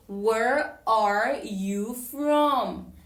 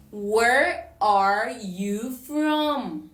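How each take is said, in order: Both takes have the same delivery.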